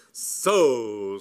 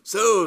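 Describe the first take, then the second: First: Loud, drawn-out stern "So"; triumphant accusation. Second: Very high, loud copycat "So"; echoing accusation. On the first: Lady Bassett catching the book thief, loud and stern. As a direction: pounce on the culprit, loud. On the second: Cyril following the lady's lead, high loud echo. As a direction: parrot her outrage an octave up. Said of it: "follow the lead of such a woman". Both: A narrator's reading.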